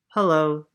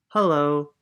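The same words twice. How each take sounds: First: Timid louder hello; shy shivering hello. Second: Friendly louder group greeting; neighbours' hello. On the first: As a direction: say it nervously, a little shaky. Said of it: "said Posey, shivering". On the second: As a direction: greet her like kind neighbours. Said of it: "replied the people over the wall". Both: Acted.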